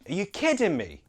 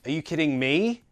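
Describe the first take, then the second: First: The stress falls on the word kidding. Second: The stress falls on a word other than kidding. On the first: The speaker calls it right. "The stressed word should be kidding" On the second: The speaker calls it wrong. "Sometimes I hear students say like"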